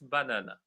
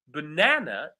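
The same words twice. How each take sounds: First: All syllables have equal stress. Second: The stress is on the second syllable. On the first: "They all have the same stress level" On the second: "the correct pronunciation is banana. So the stress falls on the second syllable"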